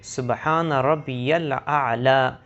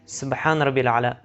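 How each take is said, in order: First: It is recited slowly and carefully. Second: It is recited quickly and hurriedly.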